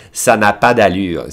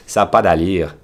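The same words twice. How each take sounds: First: Said in the usual way. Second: Canadian French lilt on Ça n'a pas d'allure; Québécois accent. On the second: Shown as a demonstration. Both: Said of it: "the accent is".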